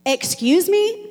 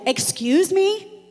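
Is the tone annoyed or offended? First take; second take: offended; offended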